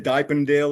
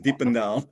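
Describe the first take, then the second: First: The name is said with an American pronunciation. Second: The name is said with its native pronunciation. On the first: The speaker calls it wrong. "Americans mostly say Diependale or something like that" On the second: The speaker calls it right. "It is Diependal"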